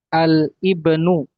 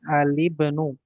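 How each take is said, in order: First: The article and noun are said as separate parts. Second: The article and noun are run together in reading.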